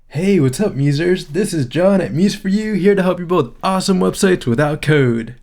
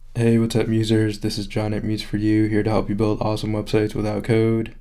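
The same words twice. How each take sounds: First: It is said with more excitement, sounding forced. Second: It is said in a calmer, toned-down way.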